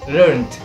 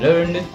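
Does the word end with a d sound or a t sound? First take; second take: t sound; d sound. First: The word ends with a t sound. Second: The word ends with a d sound. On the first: This is the British form. "British sounds learned" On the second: This is the American form. "American learned"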